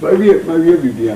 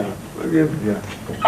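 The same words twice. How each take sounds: First: Said in the usual way. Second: Much lower, softer, slow trailing repeat; quiet, slow repeat. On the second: Acted. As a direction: let it sink away slowly under the breath. Worker repeats his line, fading.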